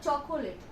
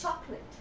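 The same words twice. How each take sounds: First: The middle vowel is clearly pronounced. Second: The middle vowel is dropped. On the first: The speaker calls it wrong. "It's not chocolate" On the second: The speaker calls it right. "here C O is again silent"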